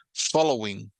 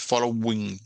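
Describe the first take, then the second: First: Said in the usual way. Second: FOLLOWING broken up as follow-wing; wrongly split syllable. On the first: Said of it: "se pegan en una sola sílaba". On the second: Shown as a demonstration. Teacher showing students what not to say, W doubled.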